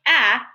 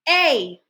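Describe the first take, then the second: First: The vowel is short, as in tap. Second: The vowel is long, as in tape. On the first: The speaker calls it wrong. "instead of saying a" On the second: The speaker calls it right. "let's say A"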